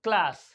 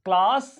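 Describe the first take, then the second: First: The vowel is a short 'a' as in cat. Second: The vowel is a long open 'ah' sound. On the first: "So in American English, uh, we would pronounce C L A S S" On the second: "आ पढ़ा जा रहा है. आ, आ, and it is longer"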